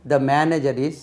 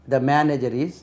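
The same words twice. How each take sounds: The two takes are said the same way.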